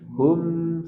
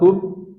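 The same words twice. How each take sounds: First: The final m flows on slightly longer. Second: The final m is cut off abruptly. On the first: The speaker calls it right. "sedikit alirkan" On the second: The speaker calls it wrong. "Jangan dipotong"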